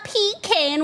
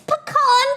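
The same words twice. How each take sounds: First: The first syllable sounds like 'pee'. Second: The first syllable does not sound like 'pee'. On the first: The speaker calls it wrong. "Not pecan. Why are you peeing in a can?" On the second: The speaker calls it right. "It's pecan pie, goddammit"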